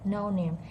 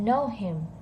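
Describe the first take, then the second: First: The H drops, so it sounds like Nim. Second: The H in him is clearly pronounced. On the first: "it's reduced, it's quiet" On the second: "Instead of saying know him"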